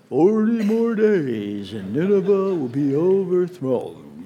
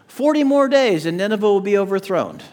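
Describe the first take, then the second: First: It is said in a gloomy Eeyore voice. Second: It is said in a normal reading voice.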